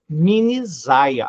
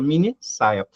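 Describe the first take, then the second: First: The second word starts with a Z sound. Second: The second word starts with an S sound. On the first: The speaker calls it wrong. "vai ficar com o som de Z" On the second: The speaker calls it right. "para não ficar o som de Z, você duplica"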